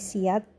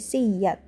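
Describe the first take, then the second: First: The middle y sound is short and single. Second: The middle y sound is doubled and held. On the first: "saat dinaqal menjadi siat" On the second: "kalau diibdal dan idgham menjadi siyat"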